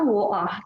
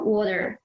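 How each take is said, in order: First: It is said in a Northeast English accent. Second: It is said in an American accent. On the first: "di Northeast banyak kan orang wah kayak gitu" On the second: "Di American kan water"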